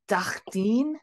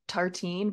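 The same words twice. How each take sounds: First: It is said with a French accent. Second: It is said with an English accent.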